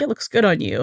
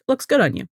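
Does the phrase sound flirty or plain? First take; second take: flirty; plain. First: It is said in a flirty, suggestive tone. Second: It is said in a plain, matter-of-fact tone. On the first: The compliment carries romantic interest. "it being flirty with like the eye look up and down" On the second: The compliment is friendly and platonic. "he's just like"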